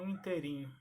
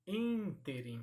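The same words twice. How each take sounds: First: "interim" said inte-RIM; stressed RIM in "interim"; wrong-form demo. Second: "Ínterim" said ÍN-terim; stress on first syllable. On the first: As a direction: hit the end of "interim". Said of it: "e não". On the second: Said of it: "e não interim". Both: Shown as a demonstration.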